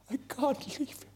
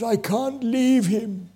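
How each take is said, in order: First: Breaking plea. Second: Pleading. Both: Retold or imitated. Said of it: "pulled him begging".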